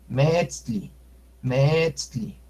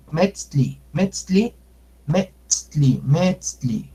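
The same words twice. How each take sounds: First: Metzli with the E drawn out, "meetzli" held on eh; long E. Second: Metzli with an ordinary short E. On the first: Teacher giving the word for moon, long E. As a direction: stretch the first vowel of metzli. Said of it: "si yo alargo la E". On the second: Teacher giving the word for leg, short E. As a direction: keep the first vowel of metzli brief. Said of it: "Pero si yo alargo la E". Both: Shown as a demonstration.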